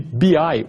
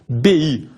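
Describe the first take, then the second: First: The letters are said with English letter names. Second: The letters are said with Portuguese letter names.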